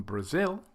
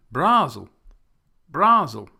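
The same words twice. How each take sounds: First: Said in the usual way. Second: Brazil as BRAH-zul; wrong first-syllable stress. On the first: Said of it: "we would change from Brazil". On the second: Shown as a demonstration. Teacher turning the stress round, Brazil said BRAH-zul. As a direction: BRA punched high and very loud in Brazil. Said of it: "change it to the first syllable".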